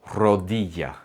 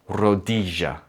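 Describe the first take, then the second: First: The double L sounds like a short Y. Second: The double L has an Argentine-style sound. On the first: "Double L sounds like the letter Y in the word yes" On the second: "a Spanish speaker from Argentina or Uruguay, you'd hear them say it more like"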